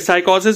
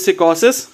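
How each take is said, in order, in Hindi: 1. पहला हिस्सा 'sigh' जैसा सुनाई देता है। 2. पहला हिस्सा 'sick' जैसा सुनाई देता है। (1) "साइकोसिस भी बोल सकते हो" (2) "करेक्ट प्रोनाउंसिएशन जो है वो सिकोसिस है"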